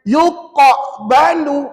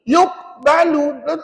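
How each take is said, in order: First: The q sound bounces very heavily. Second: The q sound has no bounce at all. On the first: "berat sangat" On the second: "langsung tak bunyi total"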